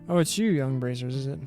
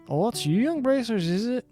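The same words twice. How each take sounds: First: It is read in the speaker's ordinary accent. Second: It is read in a put-on Scottish-or-Irish-like accent.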